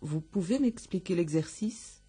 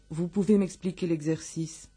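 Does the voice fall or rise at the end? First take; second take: rise; fall. First: The voice rises at the end. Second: The voice falls at the end. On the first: It is a question. "Es el final, sobre todo, ascendente. Eso es una pregunta también" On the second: It is a statement. "Es la afirmativa"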